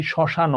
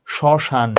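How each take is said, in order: First: শ্মশান with an added o after the n; no hasanta ending. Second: শ্মশান ending shut on the n, no vowel after; শ্মশান as "shoshan", closed ending; word stops at end. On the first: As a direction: finish শ্মশান as "shoshano". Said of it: "যদি আমি ওখানে হসন্ত না দিতাম". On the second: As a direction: stop শ্মশান dead on its final n. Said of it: "উচ্চারণটা থামছে". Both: Shown as a demonstration.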